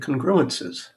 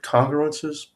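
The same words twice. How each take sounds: First: The stress is on a later syllable. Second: The stress is on the first syllable. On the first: "there are people who say congruences" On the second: "I've always said congruences with the emphasis on the first syllable"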